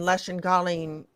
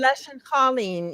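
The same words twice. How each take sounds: First: It is said with the non-Ulster mutation. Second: It is said with the Ulster mutation. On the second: "in Ulster"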